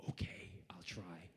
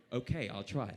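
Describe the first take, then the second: First: Slow, cowed whispered reply; meek whisper. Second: Voiced retake in an American accent; corrected American accent. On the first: Retold or imitated. Terrified actor answering his co-star, meek slow whisper. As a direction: mimic a nervous yes, barely voiced. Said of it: "I was like". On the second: Actor told to keep the accent, corrects to American. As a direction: switch into an American accent for the same reply. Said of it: "I mean".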